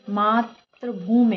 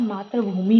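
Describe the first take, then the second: First: "मातृभूमि" slow, ending "bhoome"; wrong ending. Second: "मातृभूमि" joined, ending in clear "mi"; correct ending. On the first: Teacher rejects the mistake, drawn-out "मातृभूमि". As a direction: split "मातृभूमि" slowly and blur the last vowel. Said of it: "नहीं होता है". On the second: Teacher gives the correction, joined "मातृभूमि". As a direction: say "मातृभूमि" as one word. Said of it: "होता है". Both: Shown as a demonstration.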